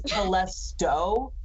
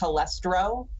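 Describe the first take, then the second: First: The name is said without an r after t. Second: The name is said with an r after t. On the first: The speaker calls it right. "One of them is Telesto" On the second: The speaker calls it wrong. "our buddy pr- mispronounces it as Telestro"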